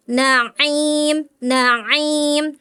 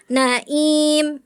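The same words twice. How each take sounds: First: NAIM with ain squeezed mid-throat before IM; strong ain. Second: NAIM with a plain break, no throat squeeze; weak ain. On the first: Shown as a demonstration. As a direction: press firmly between NA and IM in NAIM. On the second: Retold or imitated. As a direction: imitate the student's slack ain in NAIM. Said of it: "Kurang kuat".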